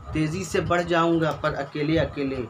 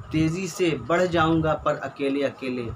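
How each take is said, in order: No difference in how they are said.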